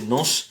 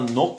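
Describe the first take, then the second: First: The word ends with an s sound. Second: The word ends with a k sound. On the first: The speaker calls it right. "le C se prononce comme le S" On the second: The speaker calls it wrong. "c'est pas Nok"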